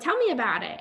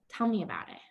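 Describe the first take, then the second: First: The voice is bright, perky and high-energy. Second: The voice is lowered, quiet and low-energy. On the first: The listener stays on their own upbeat level. The speaker calls it wrong. "My voice is perky" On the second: The listener mirrors the other person's low mood. The speaker calls it right. "I bring my energy and my voice down"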